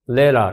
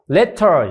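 First: The middle consonant is a quick r-like flap. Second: The middle consonant is a clear, hard t. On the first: The speaker calls it right. "ラリルレロになるよね" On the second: The speaker calls it wrong. "letter じゃないよね"

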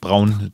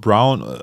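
First: The name is pronounced the German way. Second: The name is pronounced the English way.

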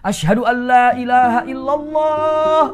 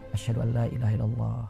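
First: It is said loudly, in a full voice. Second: It is said quietly, in a low voice.

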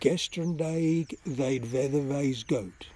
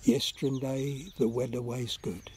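First: The first word begins with a hard G sound. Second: The first word begins with a Y sound.

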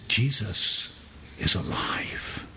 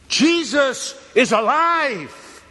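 First: It is said at normal volume. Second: It is screamed at full volume.

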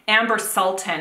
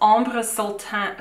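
First: The name is said with an English accent. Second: The name is said with a French accent.

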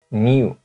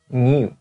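The two takes are said the same way.

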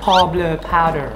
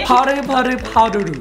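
First: It is said in an American English accent. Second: It is said in a Korean accent. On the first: "อเมริกัน" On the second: "เกาหลี"

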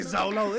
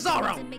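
First: The middle consonant is an L sound. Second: The middle consonant is an R sound. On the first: The speaker calls it wrong. "don't say Zolo" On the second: The speaker calls it right. "It's Zoro"

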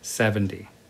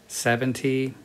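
First: It is said casually, with relaxed sounds. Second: It is said carefully, each sound distinct. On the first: "In normal pronunciation, it's 70" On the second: "70 is careful pronunciation"

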